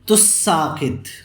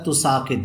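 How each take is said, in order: First: The s sound is doubled and held longer. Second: The s sound is single and short. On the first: "सीन में इदगाम कर दिया तुस्साकित" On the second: "एक ता को हज़फ कर दिया गया"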